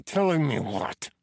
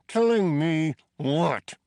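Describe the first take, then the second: First: Rising challenge. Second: Higher, louder repeat; angry demand. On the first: Prisoner challenges Teddy. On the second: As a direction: push harder the second time. Prisoner repeats, escalating. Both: A narrator's reading.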